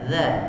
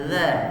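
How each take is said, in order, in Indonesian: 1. Ujung lidah menyentuh tepi gigi atas. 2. Ujung lidah menyentuh tepi gigi atas.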